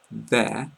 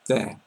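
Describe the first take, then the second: First: There with the vowel held longer; drawn-out there. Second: There short, stress at the start; clipped there. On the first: Teacher showing the possessive word, stretched. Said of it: "you emphasize the E and the I more". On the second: Teacher showing the location word, short and crisp. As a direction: hit the th and cut it short. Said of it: "the emphasis is more on the first syllable". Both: Shown as a demonstration.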